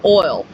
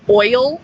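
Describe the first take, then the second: First: The word is said as one syllable. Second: The word is said as two syllables. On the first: This is how the speaker usually says it. "I'm always used to saying oil" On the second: This is how many other people say it. "a lot of people say it oil, and it I can't pronounce both syllables"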